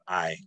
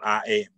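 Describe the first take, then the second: First: The vowel is one smooth, unbroken sound. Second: The vowel is split into two separate sounds. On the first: The speaker calls it right. "but I" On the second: The speaker calls it wrong. "there's no break in the vowels"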